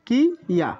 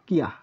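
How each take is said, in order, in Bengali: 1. এটি দুটি আলাদা শব্দাংশে উচ্চারিত হয়। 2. এটি এক মিশ্রিত শব্দাংশে উচ্চারিত হয়। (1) "কি ইয়া হওয়ার কথা" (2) "কিন্তু হবে কিয়া"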